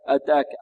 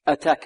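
First: The t is released without audible breath. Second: The t is released with audible breath. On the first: The speaker calls it wrong. "البعض يقول أتاك أتاك خطأ" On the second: The speaker calls it right. "والتاء هذه مهموسة أتاك"

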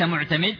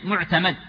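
First: The vowel before the final consonant is 'i'. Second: The vowel before the final consonant is 'a'. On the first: The speaker calls it wrong. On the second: The speaker calls it right.

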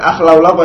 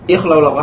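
First: The word begins with an a vowel. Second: The word begins with an i vowel. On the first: The speaker calls it wrong. "bukan akhlau laqo ya" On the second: The speaker calls it right. "tapi apa? Ikhlau laqo, hamzahnya hamzah wasal"

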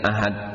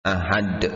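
First: The final d stops flat without a bounce. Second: The final d ends with a strong echoing bounce. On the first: The speaker calls it wrong. "jangan membacanya ahad" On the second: The speaker calls it right. "dal di sini qalqalah kubra"

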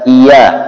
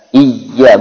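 First: The y sound is short and single. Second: The y sound is doubled and held longer. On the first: The speaker calls it wrong. "bukan iya" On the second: The speaker calls it right.

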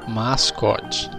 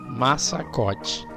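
First: No extra syllable is inserted in the middle. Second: An extra syllable is inserted in the middle. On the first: The speaker calls it right. "O correto é mascote" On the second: The speaker calls it wrong. "E como é que eu falei?"

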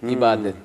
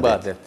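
First: The word starts with a front 'i' vowel. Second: The word starts with a back 'ı' vowel. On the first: The speaker calls it wrong. "İ harfiyle söyleriz" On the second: The speaker calls it right. "Aslı ı ile söylenmesi gerekir"

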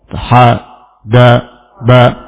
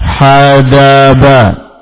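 First: Each syllable is said separately with pauses between. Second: The syllables are joined smoothly without any pauses. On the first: "Boleh dibaca dengan putus-putus" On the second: "boleh dibaca nyambung"

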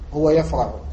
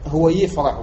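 First: The verb begins with 'ya', an a vowel. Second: The verb begins with 'yi', an i vowel. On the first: The speaker calls it right. "يقولون يفرح وجوبا" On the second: The speaker calls it wrong. "بكسر الياء لا يكسرون الياء"

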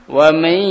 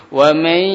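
No difference in how they are said.

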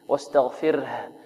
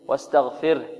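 First: The final h is clearly audible. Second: The final h is faint, barely heard. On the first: The speaker calls it right. "أن نوضحها في القراءة" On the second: The speaker calls it wrong. "ها خفيفة ربما لا تكاد تبين"

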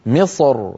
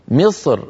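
First: The final r is pronounced heavy and full. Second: The final r is pronounced light and thin. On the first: "يفخم الراء من أجل الصاد المستعلية قبلها فيقول" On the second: "رقق الراء فيقول"

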